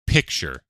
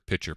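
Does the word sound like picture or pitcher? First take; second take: picture; pitcher. First: It sounds like picture, with a k sound. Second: It sounds like pitcher, with no k sound. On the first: The speaker calls it right. "They meant picture" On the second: The speaker calls it wrong. "They kept saying pitcher"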